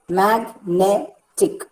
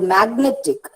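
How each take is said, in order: First: "magnetic" very slowly as mag, ne, tic; syllable by syllable. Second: Said in the usual way. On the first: Shown as a demonstration. Teacher dividing a word for students, syllable by syllable. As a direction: break "magnetic" into three separated beats. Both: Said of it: "can be divided into three syllables".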